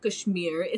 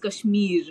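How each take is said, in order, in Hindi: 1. यह शब्द अमेरिकी लहजे में बोला गया है। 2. यह शब्द दक्षिण एशियाई लहजे में बोला गया है। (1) "it's not Kashmir" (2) "please pronounce it correctly"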